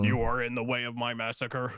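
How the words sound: It is said in a robotic voice.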